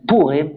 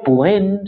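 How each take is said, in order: First: The stress is on the first syllable. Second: The stress is on the last syllable. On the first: The speaker calls it wrong. "algunos dicen Purim, acentúan la U" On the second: The speaker calls it right. "sería como creo que es más correcto decirlo"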